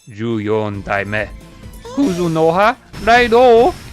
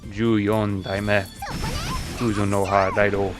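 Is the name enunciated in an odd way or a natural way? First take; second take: odd; natural. First: The name is enunciated in an odd, unnatural way. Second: The name is enunciated the way the villains say it. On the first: The speaker calls it wrong. "That was kind of a weird enunciation" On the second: The speaker calls it right. "They go like"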